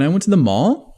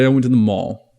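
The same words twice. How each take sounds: First: The pitch curves upward at the end. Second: The pitch curves downward at the end. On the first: The speaker sounds unsure and seeks approval. "Sounds like a question" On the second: The speaker sounds sure, commanding and authoritative. "Curves down"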